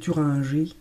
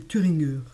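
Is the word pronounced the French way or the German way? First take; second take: French; German. First: The word is said with French pronunciation. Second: The word is said with German pronunciation.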